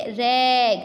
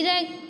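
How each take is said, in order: First: रैग with the vowel stretched long and louder; loud, overlong रैग; wrong long vowel. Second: रैग with a short, quick A vowel; रैग, vowel cut short. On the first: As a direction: draw out the A in रैग as a wrong example. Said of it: "लंबा sound अगर होता तो हम क्या पढ़ते?". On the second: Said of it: "लेकिन ये short sound है". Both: Shown as a demonstration.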